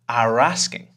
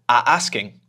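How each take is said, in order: First: An r sound joins the two words smoothly. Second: The voice stops briefly between the two words. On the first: "if I'm relaxed, what actually comes out is an extra sound" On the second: "instead of closing my mouth or instead of stopping my voice"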